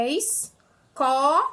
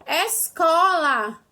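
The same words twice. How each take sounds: First: "escola" broken into separate syllables, very slow. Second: "Escola" said very slowly and clearly. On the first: ("escola" separado em sílabas) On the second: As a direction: stretch "Escola" out for the class. ("Escola" bem devagar) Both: Shown as a demonstration. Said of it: "trissílaba".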